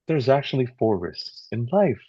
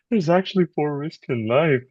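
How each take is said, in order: First: It is said in a sad, dull tone. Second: It is said in an upbeat, lively tone. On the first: The speaker calls it right. "this is the sad tonality" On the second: The speaker calls it wrong. "No, you don't say it that way"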